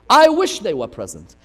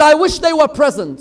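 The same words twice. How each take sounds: First: Said in the usual way. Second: Raised, louder gloat; gloating boast. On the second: Retold or imitated. Yazid boasting to Zainab, raised gloat. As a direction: crow it out loud.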